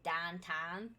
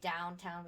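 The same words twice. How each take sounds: First: It is said drawn out in a Pittsburgh accent. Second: It is said in a plain general American accent. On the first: "we say downtown. We kind of like spread it out" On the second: "instead of saying downtown"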